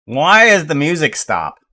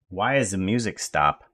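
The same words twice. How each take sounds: First: Loud, high mock complaint; mock demanding. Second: Said in the usual way. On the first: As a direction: call the music player to account, loudly. Calling out stopped music player.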